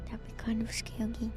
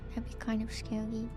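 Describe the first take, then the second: No difference in how they are said.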